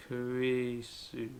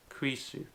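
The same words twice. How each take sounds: First: Kurisu drawn out at half speed; very slow. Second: Said in the usual way. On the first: Shown as a demonstration. Teacher showing how to sound out a name, very slowly. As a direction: stretch out each syllable of Kurisu, very slowly. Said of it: "slowly like this". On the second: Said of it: "to make krisu".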